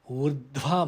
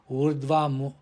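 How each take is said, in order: First: The consonant after the r is aspirated. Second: The consonant after the r is unaspirated. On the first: The speaker calls it right. "It should be" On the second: The speaker calls it wrong. "It's not"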